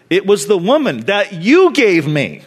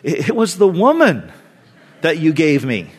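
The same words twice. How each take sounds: First: The word you carries the main stress. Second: The word woman carries the main stress. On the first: The blame is put on the giver of the woman. "or he's blaming God" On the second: The blame is put on the woman. "he's either blaming Eve"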